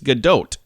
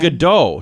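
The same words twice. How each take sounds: First: The final T sound is pronounced. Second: The final T sound is silent. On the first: The speaker calls it right. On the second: The speaker calls it wrong.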